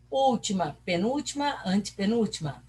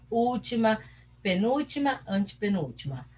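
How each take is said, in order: Both takes have the same delivery.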